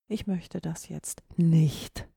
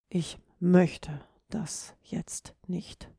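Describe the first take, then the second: First: The stress falls on the word nicht. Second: The stress falls on the word möchte. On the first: The speaker refuses completely. "Verneinung, auf gar keinen Fall" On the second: The speaker simply does not feel like it. "Ganz klar, du hast keine Lust"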